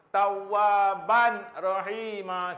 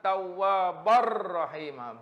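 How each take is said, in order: First: The n is kept separate before the r. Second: The n merges fully into a doubled r. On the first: The speaker calls it wrong. "salah. Itu saya tak dengung langsung, saya tak masuk langsung" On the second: The speaker calls it right. "Dia kena kata Tawwabar rahimah, barra"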